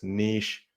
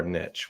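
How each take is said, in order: First: Long ee and sh in "niche"; niche as "neesh". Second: Short i and tch in "niche"; niche as "nitch". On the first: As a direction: say "niche" to rhyme with leash. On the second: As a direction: say "niche" to rhyme with rich. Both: Shown as a demonstration. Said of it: "worked up about whether it's".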